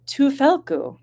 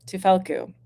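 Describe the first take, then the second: First: "Tufelku" with a high-pitched push, then dropping; trying out emphasis. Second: "Tufelku" evenly, with little emphasis, falling; tentative pronunciation. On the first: Streamer guessing at a viewer's name, high emphatic "Tufelku". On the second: Streamer retrying a viewer's name, even falling "Tufelku". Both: Real, not acted. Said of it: "where to put the emphasis".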